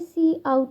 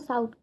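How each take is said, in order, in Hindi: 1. यह 'see' अक्षर के नाम से शुरू होता है, फिर 'out'। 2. यह एक शब्दांश है जो 's' ध्वनि से शुरू होता है। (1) "हमें इसे प्रोनाउंस करना होगा सी आउट" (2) "ये दोनों चीज़ें गलत होंगी"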